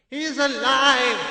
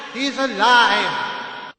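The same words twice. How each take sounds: First: High, slow joyful cry. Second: Repeated with relief, slower and higher; joyful cry again. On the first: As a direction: uncle overjoyed his nephew wakes. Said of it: "he gave a cry of joy". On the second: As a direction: let the relief pour out. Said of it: "he cried". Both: A narrator's reading.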